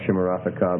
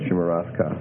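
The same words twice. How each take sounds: First: A short vowel is heard before the final ka. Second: No vowel is heard before the final ka. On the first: The speaker calls it wrong. "So it's not shimarafka" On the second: The speaker calls it right. "make that a silent schwa"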